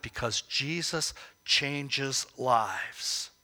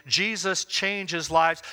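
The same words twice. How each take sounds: First: Slow, with weight on Jesus and a falling close; slow emphatic statement. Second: Slow, lives punched as the peak word; emphatic repeat. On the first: Preacher stating the key point to the congregation, slow and weighty. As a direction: lean on Jesus, say it slowly and firmly. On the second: Preacher repeating the key point to the congregation, slow and emphatic. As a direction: drive it home by hitting lives. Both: Shown as a demonstration. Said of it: "I want to emphasize that point".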